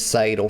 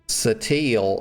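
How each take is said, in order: First: The middle consonant is a d sound. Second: The middle consonant is a t sound. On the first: The speaker calls it right. "her name's Sadal" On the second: The speaker calls it wrong. "They keep calling um this woman uh Satil"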